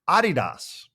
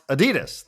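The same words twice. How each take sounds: First: The stress is on the first syllable. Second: The stress is on the second syllable. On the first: The speaker calls it right. "it is supposed to be pronounced Adidas" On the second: The speaker calls it wrong. "is actually not pronounced Adidas"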